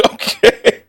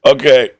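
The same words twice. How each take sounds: First: Okay. breathed out through a laugh; a real giggle over Okay; Okay. half-laughed and unvoiced. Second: Said in the usual way. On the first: Real, not acted.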